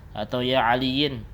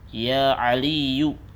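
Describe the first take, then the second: First: The name ends with an in sound. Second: The name ends with a plain u sound. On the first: The speaker calls it wrong. "juga salah" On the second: The speaker calls it right. "Tapi apa? Ya Aliyu"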